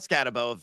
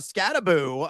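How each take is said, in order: First: The last syllable does not sound like 'boo'. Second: The last syllable sounds like 'boo'. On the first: The speaker calls it wrong. "it's not Scatabo" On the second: The speaker calls it right. "It's Boo, as in think of a ghost"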